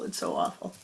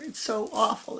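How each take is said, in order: First: Much lower, whispered and soft; whispered moan. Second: Said in the usual way. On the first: Acted. Man in the thorns whispers his misery. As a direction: breathe it out as a hopeless whisper.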